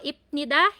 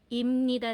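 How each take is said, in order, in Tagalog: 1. Binibigkas ito na may 'p' bago ang 'n'. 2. Binibigkas ito na may 'm' bago ang 'n'. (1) "hindi na po" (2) "Imnida na siya"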